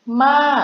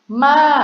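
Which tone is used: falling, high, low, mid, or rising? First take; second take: high; high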